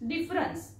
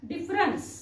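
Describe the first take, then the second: Both takes have the same delivery.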